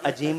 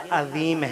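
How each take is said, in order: First: The middle consonant is a plain j sound. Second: The middle consonant is an emphatic z sound. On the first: The speaker calls it wrong. "लफ्ज नहीं है" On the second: The speaker calls it right. "बल्कि सुभान रब्बियल अजीम है"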